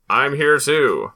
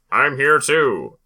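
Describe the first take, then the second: First: A wind-up doll repeating its phrase; pull string toy. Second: Like a talking doll when you yank the string; pull string toy. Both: Retold or imitated. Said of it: "doll where you pull the string".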